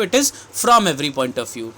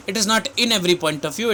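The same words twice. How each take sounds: First: Slow correction, weight on "from" as the right word; stress on FROM. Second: Slow correction, weight on "in" as the wrong word; stress on IN. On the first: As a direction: set "from" apart clearly, then settle downward. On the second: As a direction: pick out "in" while carefully rejecting it. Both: Shown as a demonstration. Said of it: "Mind this thing very clearly".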